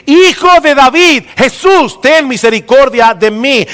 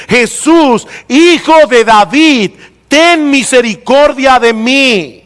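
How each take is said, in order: First: Shouting. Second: A preacher's raised, drawn-out cry of "Jesús" first. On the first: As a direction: shout the title first, then "Jesús". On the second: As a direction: call out slowly, name before title. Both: Retold or imitated. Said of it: "comenzó a gritar y a decir".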